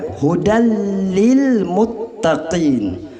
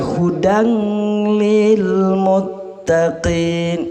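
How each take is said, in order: First: The n merges into a doubled l sound. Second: A nasal n sound is heard before the l. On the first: The speaker calls it right. "Hudalli, ya, jelas kentarlah" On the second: The speaker calls it wrong. "tidak boleh dibaca"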